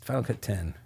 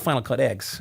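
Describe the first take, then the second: First: The last word is said as the number ten. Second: The last word is said as the letter X. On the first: The speaker calls it right. "it's Final Cut ten" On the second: The speaker calls it wrong. "I'm just kind of an ass about that"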